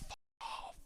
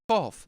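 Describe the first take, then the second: First: It is said lightly, with surprise. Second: It is said harshly, with aggression. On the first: The news is surprising. "if someone tells you something quite surprising" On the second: The listener should go away. "if there's someone just being really volatile towards you"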